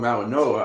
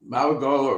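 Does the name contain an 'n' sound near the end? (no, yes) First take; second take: yes; no. First: The name is said with an n sound. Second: The name is said without an n sound.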